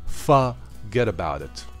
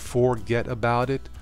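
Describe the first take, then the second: First: The words run together in a New York accent. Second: Each word is said fully in a standard accent. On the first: "slang that came out of New York" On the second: "Instead of forget about it"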